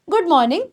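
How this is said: Good is quick; the stress falls on morning.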